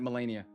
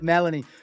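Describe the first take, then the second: First: The name ends with an extra "uh" syllable. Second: The name ends with a plain "ee" sound. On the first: The speaker calls it wrong. "I look at it and I'm like" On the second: The speaker calls it right. "There we go. I got it"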